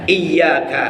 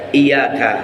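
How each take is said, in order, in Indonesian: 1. Bunyi y-nya dibaca panjang dan ganda. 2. Bunyi y-nya pendek dan tunggal. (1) "Ya-nya itu ada tanda tasdid ya" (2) "ya-nya tanpa tasdid, enggak rangkap bacanya ya"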